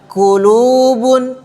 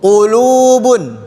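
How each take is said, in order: First: The first consonant is a front k sound. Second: The first consonant is made deep in the back. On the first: The speaker calls it wrong. "jangan dibaca qulubun, qulu, ah, itu kaf" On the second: The speaker calls it right. "Huruf qaf agak ke belakang sedikit"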